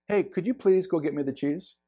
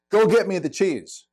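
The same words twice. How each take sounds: First: Softer, courteous asking; a kind please with a rising ask; polite request. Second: Curt, slightly louder order; a brusque demand for the cheese; blunt demand. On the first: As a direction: ask it nicely, gently. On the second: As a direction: bark it like a command. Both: Shown as a demonstration. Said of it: "thirty-eight percent of communication is tone".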